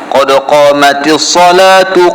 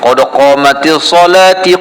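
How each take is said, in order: First: The word ends with a 'u' vowel. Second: The word ends with an 'i' vowel. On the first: The speaker calls it right. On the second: The speaker calls it wrong. "Ramai orang baca lagu tu. ... Tak betul"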